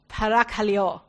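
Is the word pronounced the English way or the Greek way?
Greek. The word is pronounced the native Greek way. This is how a Greek speaker says it. The speaker calls it right. "my friend told me, who's Greek, she said"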